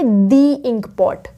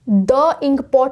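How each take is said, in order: First: 'The' is said with a long 'thee' vowel. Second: 'The' is said with a short 'thuh' vowel. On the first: The speaker calls it right. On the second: The speaker calls it wrong. "द ink pot नहीं बोलेंगे"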